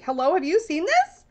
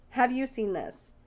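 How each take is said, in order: First: Higher, eager rising question; excited text voice. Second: Slower, quieter, pointed repeat; softer insistent repeat. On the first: Texting her bestie about the deck, eager rising call. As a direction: sound like you're grabbing a friend's arm. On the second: Texting her bestie, slower quieter insistent repeat. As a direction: lean in and ask it again, meaningfully. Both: Retold or imitated. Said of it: "texting one of my besties right now to be like".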